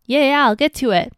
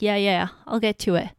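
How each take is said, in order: First: Louder, higher, quick annoyed yeah yeah; mock husband losing patience; irritated brush-off. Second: Dismissive brush-off. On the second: Retold or imitated. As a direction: lightly mimic a husband brushing her off. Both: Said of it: "He'll be like".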